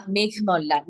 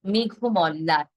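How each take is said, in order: First: মেঘমল্লার said as meghmɔllar; wrong take of মেঘমল্লার. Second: মেঘমল্লার said slowly as meghomɔllar; correct pronunciation. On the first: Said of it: "না, এটা হবে". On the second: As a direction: say মেঘমল্লার slowly with an ও after মেঘ. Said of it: "এটা হবে". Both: Shown as a demonstration.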